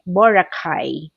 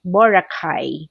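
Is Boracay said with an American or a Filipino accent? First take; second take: American; American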